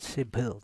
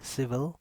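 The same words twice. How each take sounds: First: The middle sound does not use teeth on lip. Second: The middle sound uses upper teeth on lower lip. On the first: The speaker calls it wrong. "This is not civil" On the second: The speaker calls it right. "This is civil"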